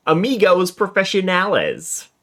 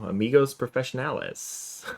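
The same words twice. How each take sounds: First: Higher and louder, playfully overdone; hammed-up Spanish. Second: Said in the usual way. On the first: Player relishing the note's sign-off, hammed-up and higher. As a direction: repeat it as a hammed-up flourish.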